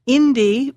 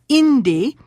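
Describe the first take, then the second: First: Indi said IN-di, rising; IN-di, first syllable; stress on first syllable. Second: Indi with the stress on IN; IN-di, first syllable stressed. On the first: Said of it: "for the sun". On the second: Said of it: "The next to the last syllable is the first syllable". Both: Shown as a demonstration.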